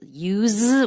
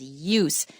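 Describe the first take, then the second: First: The word ends with a z sound. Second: The word ends with an s sound. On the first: It is the verb. "the verb is use with a z sound" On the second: It is the noun. "the noun is use"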